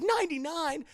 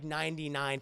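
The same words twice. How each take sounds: First: High, shocked cry on ninety-nine; acted high-pitched dismay; alarmed disbelief. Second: Said in the usual way. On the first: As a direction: echo ninety-nine back in panic. Peter appalled at the figure.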